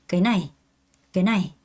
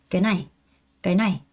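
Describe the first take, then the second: Both takes have the same delivery.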